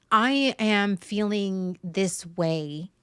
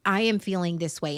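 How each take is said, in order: First: Slow and deliberate. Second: Said in the usual way. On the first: Shown as a demonstration. Models reframed sentence, then repeats it.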